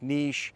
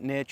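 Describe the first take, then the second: First: The word rhymes with quiche. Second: The word rhymes with rich.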